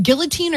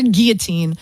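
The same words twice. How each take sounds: First: Guillotine with the L sounded; hard G, clear L in guillotine; pronounced with L. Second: Guillotine with a silent L; pronounced without L. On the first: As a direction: say guillotine as GILL-uh-teen. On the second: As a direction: say guillotine as GEE-uh-teen. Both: Shown as a demonstration. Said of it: "is it guillotine or guillotine".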